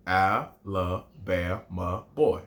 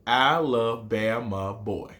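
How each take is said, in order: First: Put-on "Alabama boy" even slower and low; slower, lower recitation. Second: Put-on "Alabama boy" drawn out slowly; slow recitation. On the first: Teacher repeating haiku line low and very slow. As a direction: say it again, deeper and slower. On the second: Teacher reciting his haiku's first line slowly. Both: Shown as a demonstration. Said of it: "my haiku starts like this".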